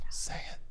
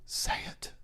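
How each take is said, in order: First: Said in the usual way. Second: Breathy whisper, no voice; whispered quote. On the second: Shown as a demonstration. Host demos the quote in a whisper. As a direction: hush it like the character. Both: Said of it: "That's how he says it".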